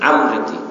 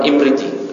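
First: The word begins with an 'a' vowel. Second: The word begins with an 'i' vowel. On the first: The speaker calls it right. "Yang afsah amriti" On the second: The speaker calls it wrong. "bukan imriti"

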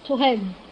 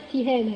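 First: The first vowel is not an 'i' sound. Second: The first vowel is an 'i' sound. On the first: The speaker calls it wrong. "الخطأ الأول" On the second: The speaker calls it right. "بكسر التاء"

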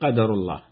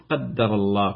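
First: The d sound is short and single. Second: The d sound is long and doubled. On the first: "بالتخفيف" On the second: "وبالتشديد"

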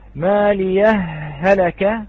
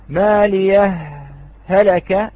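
First: The two h sounds merge into one. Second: A brief stop separates the two h sounds. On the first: "هذا هو الإدغام" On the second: "هذا هو الإظهار"

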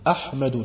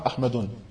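First: The word ends in a plain vowel without n. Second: The word ends with an added n sound. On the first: The speaker calls it right. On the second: The speaker calls it wrong.

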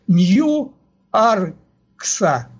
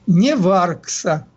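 First: The name is read with English letter values. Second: The name is read with Russian letter values. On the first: "если читать русскими буквами, вернее, по-английски, то будет" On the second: "А если читать русскими, то получится"

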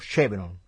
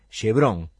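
First: The name is said with English-style sounds. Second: The name is said with Spanish-style sounds. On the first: The speaker calls it right. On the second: The speaker calls it wrong.

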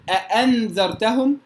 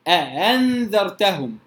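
First: The second hamza is a full glottal stop. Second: The second hamza is softened between stop and h. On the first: The speaker calls it wrong. "لا أقول أأنذرتهم" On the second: The speaker calls it right. "وإنما أأنذرتهم"

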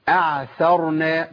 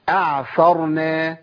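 No difference in how they are said.

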